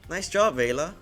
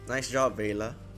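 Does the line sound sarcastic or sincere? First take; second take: sincere; sarcastic. First: The line is said in a sincere tone. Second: The line is said in a sarcastic tone. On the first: The speaker calls it right. "that sounds way better" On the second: The speaker calls it wrong. "Do I sound too sa sarcastic there"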